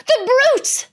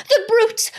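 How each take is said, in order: First: Even higher, louder tearful cry; crying girl, building. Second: Much higher, tearful outburst; crying girl. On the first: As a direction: let the sobbing cry break higher. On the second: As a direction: cry out in tears. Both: Acted. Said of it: "tears streaming down her cheeks".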